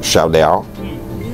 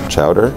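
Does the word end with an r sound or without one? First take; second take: without r; with r. First: The word ends without an r sound. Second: The word ends with an r sound. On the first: The speaker calls it right. "Say it right. It's a Simpsons reference" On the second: The speaker calls it wrong.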